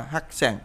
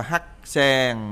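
First: "hát sen" joined up with a shorter sen; correct reading. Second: "hát sen" pulled apart, hát, then a long sen; wrong reading. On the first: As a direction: say "hát sen" as one connected word. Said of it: "mà đọc là hát sen". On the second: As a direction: separate "hát sen" into two drawn-out syllables. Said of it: "không phải đọc là hát sen". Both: Shown as a demonstration.

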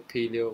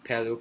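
First: "paleo" with a long first vowel, PEE-lee-oh; alternative pronunciation. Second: "paleo" with a short first vowel, PAL-ee-oh; alternative pronunciation. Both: Shown as a demonstration. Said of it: "Is it pronounced paleo".

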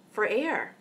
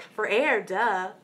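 First: Matter-of-fact. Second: Louder, obvious "For air, duh" like it's plain as day; mock duh tone. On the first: Retold or imitated. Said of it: "very matter-of-factly". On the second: Boy answering his friend's question, mocking duh tone. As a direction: tease it as the most obvious answer. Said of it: "the way he said it".

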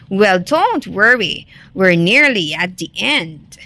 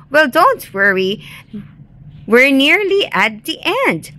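First: Understated wolf menace at everyday pitch; lightly menacing false reassurance; mild snarl. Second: Higher, lighter turning of the tables; lightly triumphant. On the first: Wolf chasing Rabbit near the end, mild snarl. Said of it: "snarled the wolf". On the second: Rabbit echoes the wolf's words back, lightly triumphant. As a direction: lift the pitch toward the end, mildly confident. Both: A narrator's reading.

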